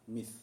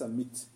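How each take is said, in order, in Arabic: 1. الحرف صوت ث خفيف. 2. الحرف صوت ت شديد. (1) "قل مثلها مث نعم" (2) "ليس مت"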